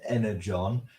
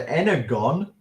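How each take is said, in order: First: The g is soft, like a j. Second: The g is hard, like in go. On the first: The speaker calls it wrong. "I know we pronounce it Energon" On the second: The speaker calls it right. "it's a hard G. So it's either Energon or it's wrong"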